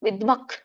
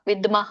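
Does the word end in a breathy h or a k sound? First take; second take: k sound; breathy h. First: The word ends in a k-like sound. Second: The word ends in a full breathy h. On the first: The speaker calls it right. "ಕ ಖ ದೊಡ್ಡ ಖ ಇದೆಯಲ್ಲ ಅದು ಬರುತ್ತೆ ಅಲ್ಲಿ" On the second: The speaker calls it wrong. "ಅಲ್ಲಿ ಹೇಳ್ಬಾರ್ದು ಮ- ಮಧ್ಯದಲ್ಲಿ"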